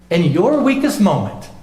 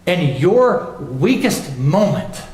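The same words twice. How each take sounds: First: Said in the usual way. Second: Each word drawn out slowly; In your weakest moment said slow and deliberate; slow weighty emphasis. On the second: Shown as a demonstration. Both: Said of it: "But I want you to understand this".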